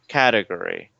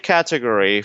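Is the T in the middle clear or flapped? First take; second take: flapped; clear. First: The T is flapped, sounding like a quick R. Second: The T is pronounced as a clear T sound. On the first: This is how most Americans normally say it. "most Americans turn the T like an R" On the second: This is easier for a learner to pronounce. "you can say category if it makes it easier for you"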